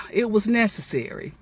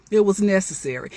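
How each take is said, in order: Both takes have the same delivery.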